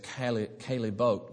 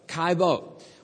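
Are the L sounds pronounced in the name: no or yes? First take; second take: yes; no. First: The L sounds are pronounced in the name. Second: The L sounds are silent in the name. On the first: The speaker calls it wrong. "I've always thought of it as Caillebotte" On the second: The speaker calls it right. "you don't pronounce the L's"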